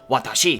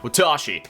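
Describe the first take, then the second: First: Each syllable gets the same length and weight. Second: One syllable is stressed, English-style.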